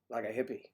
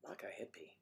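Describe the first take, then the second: First: Said in the usual way. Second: A breathless whispered echo of the phrase; hushed whispered repeat. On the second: Shown as a demonstration. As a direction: whisper it back like a sly aside.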